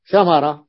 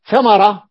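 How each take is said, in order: First: Said in the usual way. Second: ثمرة called out higher and louder; ثمرة pitched up and punched loud; emphatic model word. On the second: Shown as a demonstration.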